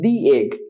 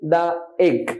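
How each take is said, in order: First: 'The' is said with a long 'ee' vowel. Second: 'The' is said with a short 'uh' vowel. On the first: The speaker calls it right. "এটা দি egg" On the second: The speaker calls it wrong. "এটা দা হবে না"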